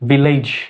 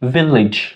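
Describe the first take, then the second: First: The final syllable sounds like 'lej'. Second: The final syllable sounds like 'lij'. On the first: The speaker calls it wrong. "এটা আসলে ভিলেজ হবে না" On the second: The speaker calls it right. "লিজ"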